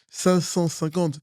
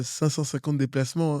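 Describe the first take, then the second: First: "Cinq cent cinquante" said slowly, each word weighted; emphatic number. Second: Said in the usual way. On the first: Real, not acted. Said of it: "pas dix, pas vingt, pas cent". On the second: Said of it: "Cinq cent cinquante, pas dix".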